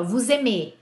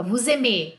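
First: Vous aimez with the stress on the last syllable, mez; stress the final syllable. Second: Vous aimez, the weight clearly on the final mez; stress the final syllable. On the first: Teacher demonstrating the stress in aimez to students, ending on mez. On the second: Teacher repeating aimez for students, stress on the final mez. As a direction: finish aimez on its last syllable. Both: Shown as a demonstration. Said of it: "Olha a sílaba tônica".

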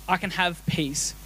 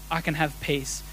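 Both takes have the same delivery.

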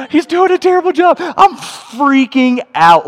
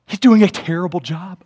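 First: Gasp, then high, loud freak-out; hammed-up alarm at a disaster; acted panic. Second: Said in the usual way. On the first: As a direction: squeal it in mock horror, stretching out the end. Retelling his own panic.

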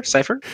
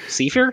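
First: "Cipher" said SIGH-fer, long i, high rising; "Cipher" as SIGH-fer, asking. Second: "Cipher" said SIF-er, short i, high rising; "Cipher" as SIF-er, asking. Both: Shown as a demonstration.

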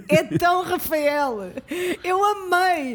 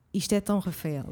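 First: Laughing it out slowly, a bit higher; can't stop laughing at how typical he is; slow amused laugh through the words. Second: Said in the usual way. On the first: Real, not acted. Friend laughing about Rafael.

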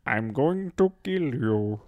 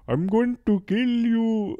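First: Slow, badly faked Swedish that sounds British; measured threat in posh British-sounding mock Swedish; attempted Swedish accent. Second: High, loud, hammed-up killer threat; Swedish butcher. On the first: Shown as a demonstration. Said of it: "it's very British sounding". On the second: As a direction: call out a mock murderous Swedish threat. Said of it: "they bring out the Swedish butcher".

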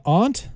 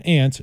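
First: "aunt" with an open ah vowel; aunt as "ahnt". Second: "aunt" said like the insect ant. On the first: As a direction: say "aunt" to rhyme with "font". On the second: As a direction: say "aunt" with the vowel of "cat". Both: Shown as a demonstration. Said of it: "I usually say aunt".

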